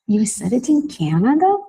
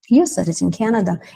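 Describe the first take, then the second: First: It is said with lively emotion, like a question. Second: It is said flatly, like a statement.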